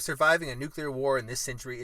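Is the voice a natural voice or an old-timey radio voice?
natural. It is read in a plain, natural voice.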